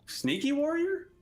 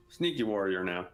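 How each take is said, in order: First: Sneaky warrior asked with a high rising question; questioning rise. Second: Sneaky warrior now said low with a falling statement tune; settled statement. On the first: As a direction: ask "Sneaky warrior?" unsure, voice climbing high at the end. Unsure of his own class. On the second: Settles on his class. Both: Real, not acted.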